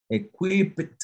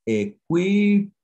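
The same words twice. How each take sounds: First: "equipped." with the final pt clearly voiced, pitched up; over-articulated past ending; sounded final consonant. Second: "equipped" said lightly, final sound faint; plain equipped; past tense equipped. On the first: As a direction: stress the ending of "equipped." so the last consonants ring out. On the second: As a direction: say "equipped" as usual, end barely heard. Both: Shown as a demonstration. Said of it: "El principio es pronunciar la D".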